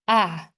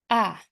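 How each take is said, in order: First: The pitch falls sharply from high to low. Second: The pitch falls sharply from high to low.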